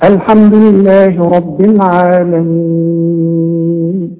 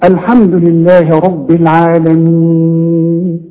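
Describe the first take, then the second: First: The final vowel is held for six counts. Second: The final vowel is held for four counts. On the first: "وستة" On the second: "وأربعة"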